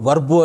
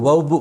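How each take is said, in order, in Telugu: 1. పదం చివర అదనంగా ఒక అచ్చు ధ్వని ఉంటుంది. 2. ఈ పదం హల్లు ధ్వనితో ముగుస్తుంది.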